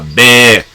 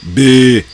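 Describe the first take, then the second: First: The vowel is said open, like bé. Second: The vowel is said closed, like bê. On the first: The speaker calls it right. "era bé" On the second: The speaker calls it wrong. "não B"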